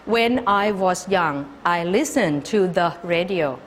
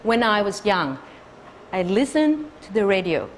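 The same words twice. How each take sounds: First: Every word is stressed equally, one by one. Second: Only the content words are stressed.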